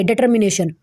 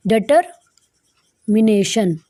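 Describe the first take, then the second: First: Said in the usual way. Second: "determination" very slowly, split by a long pause after "deter"; slow syllable breakdown. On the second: Shown as a demonstration. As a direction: dictate "determination" in drawn-out chunks for learners. Teacher spells out the new word slowly. ("Determination" को तोड़-तोड़कर, बहुत धीरे बोलें)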